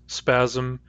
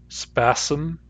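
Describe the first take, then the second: First: A Z sound comes before the M. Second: An S sound comes before the M. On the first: "These words have Z" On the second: "If I say these with S instead"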